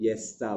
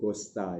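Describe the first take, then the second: First: The name begins with a Y sound. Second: The name begins with a hard G sound. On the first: This is how European languages say it. "dalam bahasa Eropah ya kita sebut Yesta" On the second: This is how Indonesian says it. "Kalau bahasa Indonesia kita sebut Gosta"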